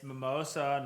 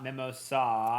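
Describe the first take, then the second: First: The stress falls on the 'o' syllable. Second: The stress falls on the final 'a' syllable. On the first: The speaker calls it right. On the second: The speaker calls it wrong. "Big A"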